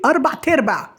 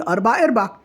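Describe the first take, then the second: First: "أربع تربع" with a t opening the second word, pitched up; quoted "أربع تربع", higher, with t-sound on the second word; others' mispronunciation. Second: "أربع أرباع" with no t before the second word; plainly corrected "أربع أرباع", in usual pitch without the t; correct form. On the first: Retold or imitated. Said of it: "التانيين دول بيقولوا إيه". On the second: Shown as a demonstration. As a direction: set it right: "أربع أرباع", second word opening on a vowel. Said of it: "هي أربع أرباع".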